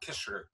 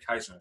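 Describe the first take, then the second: First: The name is pronounced like 'Kisser'. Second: The name is pronounced like 'Kaiser'. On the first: The speaker calls it right. "No, Kisser, Kisser" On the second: The speaker calls it wrong. "They say it's Kaiser"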